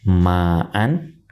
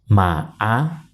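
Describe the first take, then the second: First: The word ends with an n sound. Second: The word ends on a vowel, no n.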